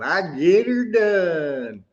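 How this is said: It is said in a Southern accent.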